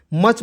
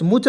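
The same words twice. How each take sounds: First: मच with a short uh vowel; मच with a short uh sound; correct much. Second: मुच with an oo vowel; मुच rhyming with such but with u as in put; wrong much. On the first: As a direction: say मच with uh as in cut. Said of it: "मच पढ़ना है". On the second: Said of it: "मुच नहीं पढ़ेंगे". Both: Shown as a demonstration.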